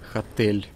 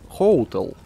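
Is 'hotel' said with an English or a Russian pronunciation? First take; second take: Russian; English. First: It is said the Russian way, like 'khotel'. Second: It is said the English way, like 'hoh-tel'. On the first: The speaker calls it wrong. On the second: The speaker calls it right.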